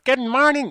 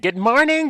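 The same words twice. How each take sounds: First: The greeting is said in a plain, innocent way. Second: The greeting is said in an overly exaggerated way.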